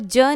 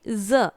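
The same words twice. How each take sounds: First: The consonant is the plain ज sound. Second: The consonant is the dotted ज़ sound. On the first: The speaker calls it wrong. "इसको ज नहीं बुलाएंगे" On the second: The speaker calls it right. "जब different sound होता है इसलिए उसको नुक्ता लगाते हैं"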